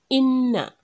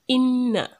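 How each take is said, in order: No difference in how they are said.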